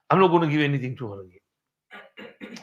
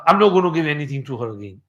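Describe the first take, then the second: First: Mild angry vow, softer and muttered under breath; quiet retold vow. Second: Fast, lightly irritated vow; a touch of retold anger, quick; mild retold anger. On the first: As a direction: repeat the vow softer, as if to himself. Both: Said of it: "he got angry".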